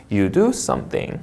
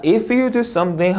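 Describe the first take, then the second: First: Low, slow close on "something"; falling intonation. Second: Higher, rising on "something"; rising intonation. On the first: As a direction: let "something" drop to finish the sentence. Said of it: "하고 내려읽는 거". ("something" 끝을 내려 읽기) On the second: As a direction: leave "something" lifted, sentence not yet over. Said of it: "하고 올려읽고". ("something" 끝을 올려 읽기) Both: Shown as a demonstration.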